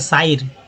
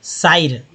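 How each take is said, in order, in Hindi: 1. यह स्वर 'ai' जैसा है, जैसे eye में। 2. यह स्वर 'ai' जैसा है, जैसे eye में।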